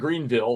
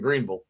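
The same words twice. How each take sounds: First: It is said the outsider's way, not locally. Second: It is said the way local people say it. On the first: This is how a newcomer says it. The speaker calls it wrong. "instead of saying Greenville" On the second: This is how people who live there say it. The speaker calls it right. "it took me a year to get you, ... saying Greenville"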